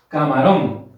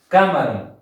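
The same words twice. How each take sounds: First: The stress is on the last syllable. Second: The stress is on the first syllable. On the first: The speaker calls it right. "cuando yo ubiqué mi acento en la sílaba rón" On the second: The speaker calls it wrong. "Comencemos con el K"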